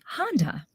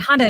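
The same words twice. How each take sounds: First: A short pause follows the word. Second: The word runs straight on without a pause. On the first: The word has time to land with the audience. The speaker calls it right. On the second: The word passes before the audience can react. The speaker calls it wrong.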